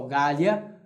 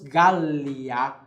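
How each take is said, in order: First: The L is short, a single consonant. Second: The L is long, a doubled consonant. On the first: The speaker calls it wrong. "nós não pronunciamos apenas Gallia" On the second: The speaker calls it right. "Gallia com dois L's, nós pronunciamos Gallia"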